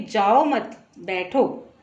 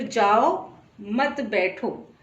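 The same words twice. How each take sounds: First: Slow "जाओ मत", break, then "बैठो"; pause after मत. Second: Slow "जाओ", clear break, then "मत बैठो"; pause after जाओ. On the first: Teacher repeating the comma example, pause after "मत". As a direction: join "जाओ मत", set "बैठो" apart. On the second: Teacher repeating the comma example, pause after "जाओ". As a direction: set "जाओ" apart, join "मत बैठो". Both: Shown as a demonstration. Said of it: "अर्धविराम लगाने से और कहने के तरीके से".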